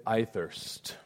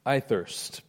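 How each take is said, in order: First: Soft, dry and spent; a hushed, thirsty plea; quiet parched quote. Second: Soft and spent; a quiet repeated plea; quiet parched quote. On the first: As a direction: let the words fall softly, parched. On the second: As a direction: let it fall, drier and wearier. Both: Acted. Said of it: "Jesus said".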